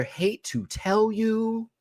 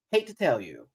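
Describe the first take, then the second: First: Slow, high drawn-out tease. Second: Said in the usual way. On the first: Shown as a demonstration. Host teasing castmate, slow high drawn-out delivery. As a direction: stretch each word out teasingly.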